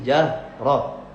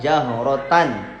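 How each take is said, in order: First: The word ends clipped on an h sound. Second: The word ends with a full -tan syllable. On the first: The reader stops at this word. "tapi kalau waqaf jadi jahroh" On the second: The reader continues without stopping. "itu kan jahrotan"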